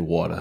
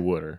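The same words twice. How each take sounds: First: It is said with a New Jersey accent. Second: It is said with a Philadelphia accent.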